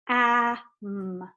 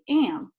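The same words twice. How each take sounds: First: The a keeps its usual short sound. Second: The a blends with the m sound. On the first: The speaker calls it wrong. "if we read this the way that we're supposed to, it would say am" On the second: The speaker calls it right. "When we pronounce it, we say am"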